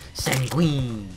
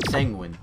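First: The word is said with dramatic, stylized flair. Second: The word is said flatly, with no flair.

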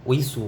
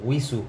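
Both takes have the same delivery.

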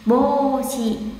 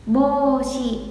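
Both takes have the same delivery.

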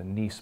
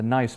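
First: It is said like the French city, neess. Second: It is said like the English word nice. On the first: The speaker calls it right. "It's named after Nice, France" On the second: The speaker calls it wrong. "It's not the Nice model"

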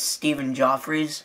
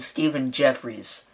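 First: The surname's first vowel sounds like 'aw'. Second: The surname's first vowel sounds like 'eh'. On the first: The speaker calls it right. "It's Stephen Joffries" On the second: The speaker calls it wrong. "I called him Stephen Jeffries. Unfortunately, I think I was saying that wrong"

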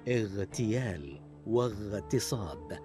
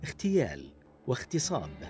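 First: The gh sound is clearly voiced. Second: The gh sound is voiceless, like kh. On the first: The speaker calls it right. "والصحيح اغتيال واغتصاب بإيضاح صوت الغين وصفته المجهورة" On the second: The speaker calls it wrong. "فينطقها بعضهم هكذا"

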